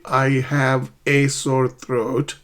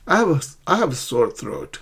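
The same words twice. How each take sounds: First: "I have a sore throat" slowly, each word apart; slow separated words. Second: "I have a" fast and blended into one sound; linked quickly. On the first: Teacher showing students the unlinked form, slow. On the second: Teacher modelling connected speech for students, fast and linked. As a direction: run "I have a sore throat" together quickly. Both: Shown as a demonstration. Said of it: "native speakers often connect words".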